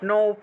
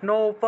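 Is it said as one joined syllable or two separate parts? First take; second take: joined; joined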